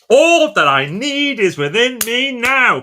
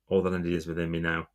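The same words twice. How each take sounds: First: It is said forcefully with lots of energy. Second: It is said flatly with little energy. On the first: The speaker calls it right. "You got to go, ... Come on!" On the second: The speaker calls it wrong. "It's not going to work"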